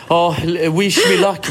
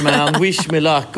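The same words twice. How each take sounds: First: Mock brave husband. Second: Lightly voiced husband, drawn out; slower mock brave plea. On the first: Husband psyching himself up. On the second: Husband heading in to his wife, slow hammed-up plea. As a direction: stretch the plea out slowly, half joking.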